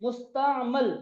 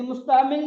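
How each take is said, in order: First: मुस्तामल with a short a in the last syllable, mus-ta-mal; teacher giving the correct मुस्तामल; correct pronunciation. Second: मुस्तामिल said with an i in the last syllable, mus-ta-mil; teacher showing the wrong form मुस्तामिल; wrong pronunciation. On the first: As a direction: say मुस्तामल cleanly, ending in -mal. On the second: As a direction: give the mistaken मुस्तामिल with a clear -mil ending. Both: Shown as a demonstration. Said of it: "यानी मुस्तामिल नहीं पढ़ना".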